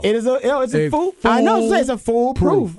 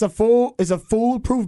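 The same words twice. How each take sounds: First: The phrase is said slowly and deliberately. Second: The phrase is said at a normal pace.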